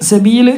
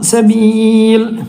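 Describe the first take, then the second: First: The long vowel is held briefly. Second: The long vowel is stretched out. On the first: The reading continues without a stop. "സബീൽ എന്നുള്ളൂ" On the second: The reader stops at this word. "പക്ഷെ നിർത്തുമ്പോൾ"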